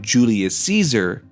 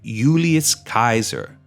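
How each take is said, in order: First: Caesar starts with a soft S sound. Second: Caesar starts with a hard K sound. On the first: This is the modern pronunciation. "you wouldn't have called him" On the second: This is how the Romans said it. "the way he would have said it"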